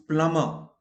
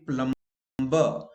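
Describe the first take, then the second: First: Plumber as plummer, B silent. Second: Plumber with the B sounded, plum-ber; wrong sounded B. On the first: Teacher correcting the class: plumber, silent B. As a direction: say plumber without the B. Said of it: "It is plumber". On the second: Teacher imitating Indian error: plumber with B. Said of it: "we wrongly pronounced". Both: Shown as a demonstration.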